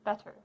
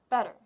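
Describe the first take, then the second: First: The middle T is a crisp, released T. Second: The middle T is a quick D-like flap. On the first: The speaker calls it wrong. "We do not use the true T here. That would sound like" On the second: The speaker calls it right. "we have a quick flap of the tongue to make a rapid D sound"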